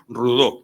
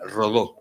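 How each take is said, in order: First: The name has a Catalan pronunciation. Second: The name has a Uruguayan Spanish pronunciation. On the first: This is how it is said in Catalonia. "en Cataluña pronunciamos Rodó" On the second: This is how it is said in Uruguay. "allá era Rodó"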